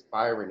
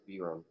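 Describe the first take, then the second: First: "Byron" said the English way, BY-run, stress on the first syllable; English pronunciation. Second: "Byron" said the French way, bee-RON, stress on the last syllable; French pronunciation. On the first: Explaining her name to a French listener, saying "Byron" the English way. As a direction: say "Byron" as an English speaker would, stress up front. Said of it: "Byron in English". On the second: Answering the French interviewer, saying "Byron" the French way. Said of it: "in French it's Byron". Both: Shown as a demonstration.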